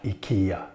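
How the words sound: The name is pronounced the Swedish way. The speaker calls it right. "I'm from Sweden, so I know that IKEA is pronounced like IKEA"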